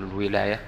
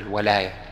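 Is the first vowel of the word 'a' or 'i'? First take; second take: i; a. First: The first vowel is 'i' (wilaya). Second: The first vowel is 'a' (walaya). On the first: It means holding authority over something. The speaker calls it wrong. "ما تقول الولاية" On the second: It means love and loyalty. The speaker calls it right. "تقول الولاية"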